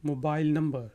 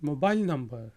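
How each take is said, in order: The two takes are said the same way.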